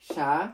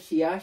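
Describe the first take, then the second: First: It is said as one syllable, sha. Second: It is said as two syllables, shi-ya. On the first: The speaker calls it right. "এটার প্রনাউন্সিয়েশনটা কি হবে? সা" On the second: The speaker calls it wrong. "এটা হওয়ার কথা ছিল শিয়া"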